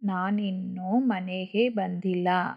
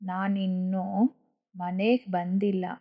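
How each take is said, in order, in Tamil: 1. 'manege' கடைசி உயிர் எழுத்தை வைத்துக்கொள்ளும். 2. 'manek' ஆக சுருங்கும்.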